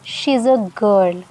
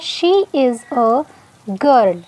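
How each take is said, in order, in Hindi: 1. She और is एक ही syllable में जुड़ जाते हैं। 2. She और is अलग शब्दों की तरह बोले जाते हैं। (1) "शी और इज़ को जोड़ देंगे" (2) "सेंटेंस था"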